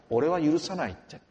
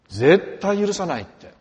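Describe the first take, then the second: First: Said in the usual way. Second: 「絶対」を大きく強く、ゆっくり言い切る; slow, loud mock vow of revenge on 絶対許さない; angry vow. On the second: Quoting an aggrieved neighbour. (怒りの誓いをゆっくり大声で)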